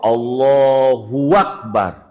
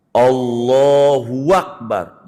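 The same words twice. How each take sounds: First: Allahu Akbar slow, sounded alohua akbar; wrong added waw. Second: Allahu Akbar slow with no w between; correct takbir. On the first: Teacher demonstrating the wrong added waw. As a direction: slip a w between Allahu and Akbar. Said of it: "Bagaimana huruf waw?". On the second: Teacher giving the right contrast. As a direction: keep Allahu and Akbar clean apart. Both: Shown as a demonstration.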